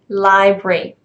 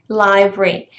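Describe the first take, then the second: The two takes are said the same way.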